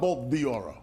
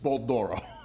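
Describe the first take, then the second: First: The name is split as 'the Oro'. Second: The name is said as one word, Doro. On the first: The speaker calls it wrong. "It's not Bolt the Oro" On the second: The speaker calls it right. "No, it's Bolt Doro"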